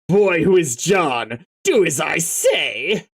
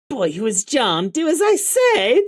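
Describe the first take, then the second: First: It is read in a plain, natural voice. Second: It is read in a crazy, stereotypical character voice.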